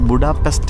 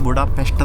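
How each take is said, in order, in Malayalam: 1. അവസാന വ്യഞ്ജന കൂട്ടത്തിൽ സാധാരണ s ശബ്ദമാണ് ഉപയോഗിക്കുന്നത്. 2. അവസാന വ്യഞ്ജന കൂട്ടത്തിൽ sh ശബ്ദമാണ് ഉപയോഗിക്കുന്നത്.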